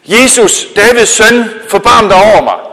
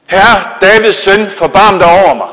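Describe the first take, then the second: First: High, loud desperate shout to Jesus; a blind beggar shouts over the crowd to Jesus, loud and high; calling out. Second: Calling out again. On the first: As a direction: cry out across the crowd for mercy. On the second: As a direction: stretch each word as you cry out. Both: Acted. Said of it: "så råbte han".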